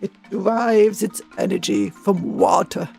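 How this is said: It is read in a put-on documentary narrator voice.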